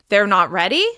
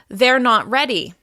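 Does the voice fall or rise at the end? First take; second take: rise; fall. First: The pitch rises at the end. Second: The pitch falls at the end. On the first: It asks a question or shows surprise. "if I include a rise in pitch at the end of the sentence" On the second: It states a fact. "our voice will fall at the end"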